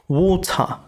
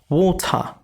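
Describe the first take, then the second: Both takes have the same delivery.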